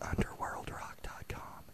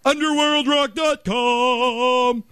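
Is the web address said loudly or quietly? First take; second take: quietly; loudly. First: The address is said quietly. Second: The address is said loudly. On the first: Listeners must lean in to catch it. "If I say it quiet, then they listen closer" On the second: Listeners cannot miss it. "when I say it this way, they hear it for sure"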